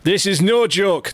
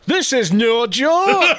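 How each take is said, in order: First: Higher Geordie repeat of the line; Geordie accent. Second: Slow, high Geordie with a laugh in it; Geordie, laughing through the words; Geordie accent. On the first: Host rereads the poster's warning in Geordie. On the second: Host reads the poster's warning to his co-host, laughing, in Geordie. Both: Pretend. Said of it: "I'm gone Geordie".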